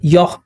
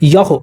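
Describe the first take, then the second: First: The final consonant stops cleanly without any echo. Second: The final consonant bounces with an echoing release. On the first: The speaker calls it right. "यहाँ पर हमने पढ़ा" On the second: The speaker calls it wrong. "ऐसे नहीं होगा"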